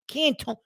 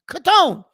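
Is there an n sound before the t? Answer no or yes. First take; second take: yes; no. First: An n sound comes before the t. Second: No n sound comes before the t. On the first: The speaker calls it wrong. "Where did the N come from?" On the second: The speaker calls it right. "It's simple pronunciation"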